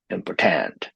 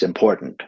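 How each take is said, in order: First: "important" stressed on the end, impor-TANT, with a full vowel; wrong final stress. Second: "important" with the middle syllable POR stressed. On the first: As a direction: push the last syllable of "important". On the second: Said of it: "so it's important, not". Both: Shown as a demonstration.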